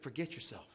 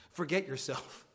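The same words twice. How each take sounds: First: Softer, gentle forget yourself; hushed imitation of a kind rebuke; soft personal word. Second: Said in the usual way. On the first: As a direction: say forget yourself quietly as if just to Garrett. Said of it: "Hey, Garrett". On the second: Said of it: "You know what he said?".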